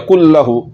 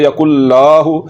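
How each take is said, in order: First: The vowel after the l is short. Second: The vowel after the l is drawn long. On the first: The speaker calls it right. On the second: The speaker calls it wrong.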